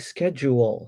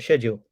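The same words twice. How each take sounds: First: The word begins with an 'sk' sound. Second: The word begins with an 'sh' sound. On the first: "she says I have to say schedule" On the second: "I say schedule"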